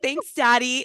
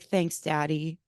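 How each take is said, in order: First: It is said without tenderness. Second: It is said tenderly and slowly.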